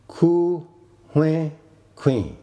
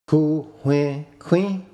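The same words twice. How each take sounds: First: The last word is on a low tone. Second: The last word is on a high tone. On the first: He bought a chicken. "Queen is low tone" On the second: He bought a knife. "He bought a knife"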